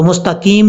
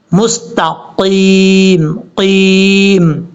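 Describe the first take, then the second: First: Quick 'مستقیم' as mustakeem; wrong thin kaf. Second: Very slow 'مستقیم' with thick ق; heavy qaf. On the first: Teacher shows what to avoid, mistaken recitation. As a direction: say 'مستقیم' with an ordinary k. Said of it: "نہیں پڑھنا". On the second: Teacher shows the full letter, slow correct recitation. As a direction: hold 'قیم' long from a back-of-throat q. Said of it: "موٹا پڑھا جائے گا". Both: Shown as a demonstration.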